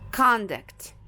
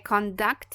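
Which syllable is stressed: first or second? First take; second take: first; second. First: The stress is on the first syllable. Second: The stress is on the second syllable. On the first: It is used as a noun. "É a primeira sílaba que é a mais forte" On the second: It is used as a verb. "aí a segunda sílaba vai ser a mais forte"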